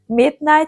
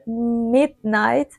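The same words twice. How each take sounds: First: The opening m sound is short and plain. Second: The opening m sound is held and stretched. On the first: "Instead of saying midnight" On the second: "she buys a little time on the mm"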